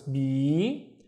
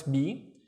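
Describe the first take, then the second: First: "B" held twice as long; long vowel. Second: Said in the usual way. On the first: Shown as a demonstration. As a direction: stretch "B" slowly into a long "bee". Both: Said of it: "The ya makes it twice as long".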